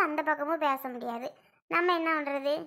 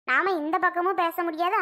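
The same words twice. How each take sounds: First: Softer, sighing resignation; resigned, dropping away. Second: Said in the usual way. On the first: Real, not acted. Woman sighs softer over being caught between both sides. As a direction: let பக்கமும் sink, voice falling off softer. Resigned aside about family quarrel.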